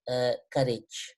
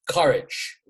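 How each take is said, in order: First: It is said weakly, with hesitation. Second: It is said strongly, with force.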